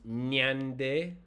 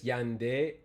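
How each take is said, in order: First: It begins with a nasal ny sound. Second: It begins with a glide like English y. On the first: "if it's nasalized, it become nyande" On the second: "it's like the English Y. It's a semi vowel"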